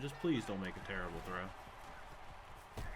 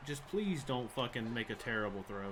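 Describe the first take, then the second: First: Quiet plea. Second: Said in the usual way. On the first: Real, not acted. Repeats the plea under breath.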